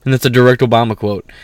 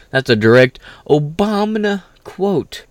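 First: Said in the usual way. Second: "That's a direct Obama quote" stretched, slow and higher; slow drawn-out emphasis. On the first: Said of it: "That's a direct Obama quote, bro". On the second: Real, not acted. Insisting to viewers, slow stressed repeat. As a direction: lean on "Obama", drawing it out.

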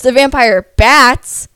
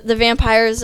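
First: The vampire bats, slower and louder, BATS hit hard; stress on bats. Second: Said in the usual way. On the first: Real, not acted. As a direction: lean on bats to correct yourself. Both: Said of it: "like, not the vampires".

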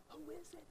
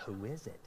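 First: Mock high squeak, very soft; high squeaky question. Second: Said in the usual way. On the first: Asking his wife who is calling, high squeaky dread. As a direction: whine it up high like a dreading kid. Wife hands him the phone.

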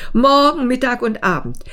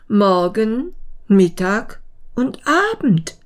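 First: Higher, quick, indignant ant; scornful quoting. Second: Puzzled pondering. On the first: Ant reporting the mayfly's claim to the beetle, scornfully. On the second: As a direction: mull over each word, higher, with pauses. Beetle ponders the words, scratching head. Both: Acted.

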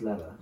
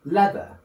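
First: Said in the usual way. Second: "leather" pitched high and rising, R dropped; exaggerated "LEATH-uh" lifting at the end; imitated British attempt. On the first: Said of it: "it's just leather". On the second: Shown as a demonstration. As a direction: mimic a strained British "leather". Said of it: "you're trying to go like".

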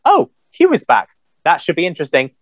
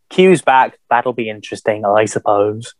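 First: A quick, bright-pitched "Oh, Q is back"; mock excited reaction. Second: Unenthused. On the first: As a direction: toss off a mildly excited first reaction. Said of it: "all I wanted to say about the Picard trailer was". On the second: Retold or imitated. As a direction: shrug it off, underwhelmed. Repeats his earlier reaction, now deflated.

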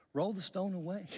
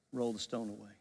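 First: Higher, open-ended instruction; acted command. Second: Low, quieter firm command; firm insistence. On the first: Jesus arriving at the graveside, higher-pitched first command. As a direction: give the order lightly, pitched up. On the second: Retold or imitated. Jesus answering the sister's objection, low and firm. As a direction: overrule the objection in a lowered voice.

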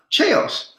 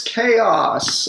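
First: "Chaos" said as "chayz", high and breathless; childish mispronunciation. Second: "chaos" said properly as "kay-oss"; correct pronunciation. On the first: Boy asks aunt to play a board game, misreading Chaos as "chayz". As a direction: whisper "Chaos" like "chase", a small boy misreading. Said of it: "Play what?". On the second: Aunt corrects the boy's reading, saying "chaos" slowly as "kay-oss". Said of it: "No, the word's chaos". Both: Retold or imitated.

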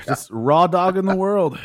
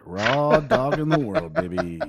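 First: Loud, high punchline delivery; excited punchline. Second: Laughing through it, slowed down; slow laughing repeat. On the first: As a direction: belt the punchline out. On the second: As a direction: savor it while laughing. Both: Acted. Punchline repeated for effect.

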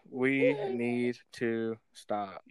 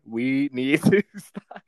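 First: Very slow, low, deadpan warning; slow dramatic breakup line. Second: Slow line broken by a laugh; slow, louder, laughing through the words. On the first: Shown as a demonstration. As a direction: drag each word out like a serious breakup line. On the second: Real, not acted. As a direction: try to say it straight but crack up.

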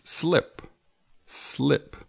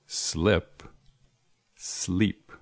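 First: "Slip" with a short clipped i, set high; the teacher models "slip" for learners; short i sound. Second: "Slip" short i, then "sleep" long ee; teacher contrasting "Slip" and "sleep"; minimal pair. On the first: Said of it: "Sleep quiere decir dormir". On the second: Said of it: "Slip and sleep". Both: Shown as a demonstration.

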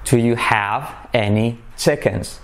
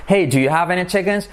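First: Slow, lower, word-by-word question; deliberate teacher's enunciation; slow model. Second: Higher, linked casual question; natural asking. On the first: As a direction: separate each word of "Do you have any chickens". Slow model, then natural repeats. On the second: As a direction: call "Hey" and run the question together. Natural acted version of slow model. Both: Shown as a demonstration.

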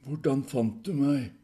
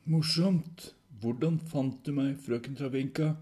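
First: Higher, loud, slow demand; demanding question. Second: Loud, higher-pitched sarcastic retort; irritated repeat. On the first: Proval confronting the visitor, loud demand. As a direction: demand it slowly and forcefully. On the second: Proval brushing off Travinka's jibe, irritated retort. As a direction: dismiss the joke and press the question. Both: Acted.

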